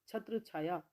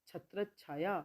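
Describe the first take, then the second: No difference in how they are said.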